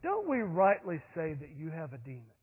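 It is said calmly and casually, in a relaxed voice. The speakers are relaxed and unbothered. The speaker calls it wrong. "leaning over an armchair"

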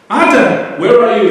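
It is said in a stern, judging tone. The caller is about to punish a wrongdoing. "The first one, I, is judgment"

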